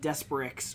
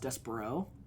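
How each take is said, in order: First: The name ends with an 'ix' sound. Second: The name ends with an 'o' sound. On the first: The speaker calls it wrong. "pronouncing it like super wrong" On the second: The speaker calls it right. "it was pronounced Despero"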